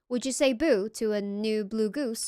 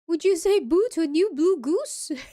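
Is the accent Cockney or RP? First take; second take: Cockney; RP. First: It is said in a Cockney accent. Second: It is said in an RP accent.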